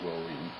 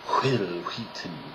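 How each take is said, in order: First: It is said in the speaker's normal voice. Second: It is said in a put-on cartoon voice.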